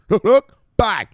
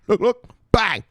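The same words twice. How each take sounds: The two takes are said the same way.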